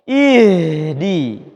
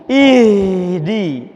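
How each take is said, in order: No difference in how they are said.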